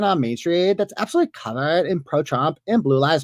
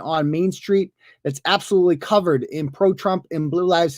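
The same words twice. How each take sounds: First: It is read in an imitated put-on voice. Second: It is read in the speaker's ordinary voice. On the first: "I got to do the voice" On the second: "why am I not doing the voice?"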